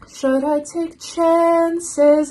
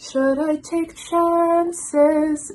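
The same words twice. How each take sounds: First: "chances" with a flat American a, sung high and slow. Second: "chances" with the a opened a little, sung high and slow; open vowel. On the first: Reviewer demos the wrong vowel in "chances". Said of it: "she doesn't say". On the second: Reviewer demos [name]'s opened vowel in "chances". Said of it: "she kind of says". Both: Shown as a demonstration.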